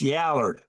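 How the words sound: It is said in a Southern way, like 'yaller'. "That's how you say it in Alabama"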